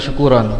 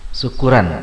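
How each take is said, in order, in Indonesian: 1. Suku kata setelah r terdengar seperti ro. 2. Suku kata setelah r terdengar seperti ra. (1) "Orang Sumatera nggak bisa bilang syukuron" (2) "roknya jadi ra, syuku syukuran gitu"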